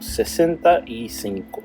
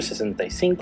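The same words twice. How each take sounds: First: The phrase is said at a slower pace. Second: The phrase is said at a faster pace.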